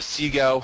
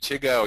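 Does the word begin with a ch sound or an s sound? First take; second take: s sound; ch sound. First: The word begins with an s sound. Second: The word begins with a ch sound. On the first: "is how we're currently uh, pronouncing it" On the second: "You could say CHIGO"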